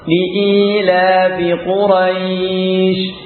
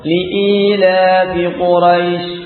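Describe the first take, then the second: First: The vowel in Quraisy is drawn out long. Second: The vowel in Quraisy is kept short. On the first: "baca mad" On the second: "baca pendek"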